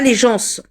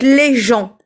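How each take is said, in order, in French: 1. Le S final de 'gens' se prononce. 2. Le S final de 'gens' ne se prononce pas. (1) "pas les gens" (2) "Le S ne se prononce pas. Donc les gens"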